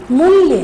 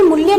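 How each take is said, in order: First: मूल्य said with a long ऊ on the first syllable. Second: मूल्य with a short clipped उ, the wrong way. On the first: Hindi teacher demonstrating the correct मूल्य, long ऊ clearly stretched. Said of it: "बड़े ऊ की मात्रा". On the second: Teacher showing the mistaken मूल्य, short उ vowel. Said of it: "मूल्य नहीं होता". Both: Shown as a demonstration.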